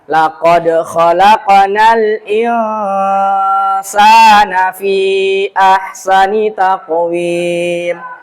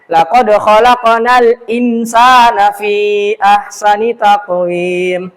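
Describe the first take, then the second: First: The n before s is nasalized and hidden. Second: The n before s is pronounced clearly. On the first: The speaker calls it right. "Seharusnya bacaan yang benar adalah" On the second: The speaker calls it wrong. "ada imam yang bacanya juga seperti itu"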